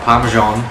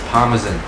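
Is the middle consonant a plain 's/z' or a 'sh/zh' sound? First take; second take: sh/zh; plain s/z. First: The middle consonant is a sh or zh sound. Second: The middle consonant is a plain s or z sound. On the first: The speaker calls it wrong. "not parmesan. Where's the H, where's the I?" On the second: The speaker calls it right. "It's parmesan"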